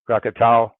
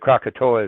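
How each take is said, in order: First: The name ends with a 'tow' sound. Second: The name ends with a 'toe-ah' sound. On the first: This is how local people say the name. "Krakatau is it more like when the, the Indonesians would say it" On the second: This is the usual English form of the name. "Krakatoa is how you say it in English"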